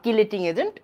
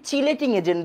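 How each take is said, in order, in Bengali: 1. প্রথম শব্দটি 'k' ধ্বনি দিয়ে শুরু হয়। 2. প্রথম শব্দটি 'ch' ধ্বনি দিয়ে শুরু হয়।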